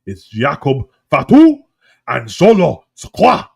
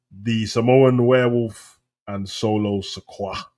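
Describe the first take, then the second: First: "Jakob Fatu" and "Solo Sikoa" slow, loud and punched; "Sikoa" loud, slow, with a hard lifted ending; cool Polynesian pronunciation. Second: Said in the usual way. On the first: Shown as a demonstration. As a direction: proclaim "Jakob Fatu" and "Solo Sikoa" with booming, drawn-out syllables. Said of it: "Why can't they make it sound cool?". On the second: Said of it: "why we have to say American".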